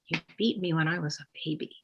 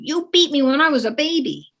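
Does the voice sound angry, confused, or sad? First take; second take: sad; angry. First: It is said in a sad tone. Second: It is said in an angry tone. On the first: The child is sad about it. "or sadness?" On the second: The child is angry about it. "is your child saying it with anger?"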